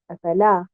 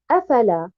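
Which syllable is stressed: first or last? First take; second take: last; first. First: The stress is on the last syllable. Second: The stress is on the first syllable. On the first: It is one verb meaning to set or disappear. The speaker calls it right. "Au niveau de la troisième haraka, qui est harakat al-lan. Donc, je prononce le mot ainsi" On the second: It becomes three words including a negation. The speaker calls it wrong. "si je place un nabr sur harakat al-hamza et je dis afala"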